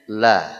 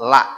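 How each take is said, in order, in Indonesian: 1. L-nya tebal, pakai lebih banyak lidah. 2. L-nya tipis, pakai ujung lidah. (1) "Nanti bunyinya la" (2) "Bukan la"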